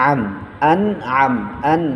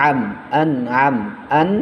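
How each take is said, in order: Both takes have the same delivery.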